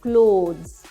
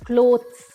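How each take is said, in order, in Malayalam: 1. th ശബ്ദം ഏതാണ്ട് നിശ്ബ്ദമാണ്. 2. വ്യക്തമായ th ശബ്ദം ഉച്ചരിക്കുന്നു. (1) "ടി എച്ച് ചേർന്നിട്ടുള്ള ശബ്ദം ഓൾമോസ്റ്റ് സൈലന്റ് ആണ്" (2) "ഇതിനെ നമ്മൾ പലരും ക്ലോത്ത്സ് എന്നാണ് പറയാറ്"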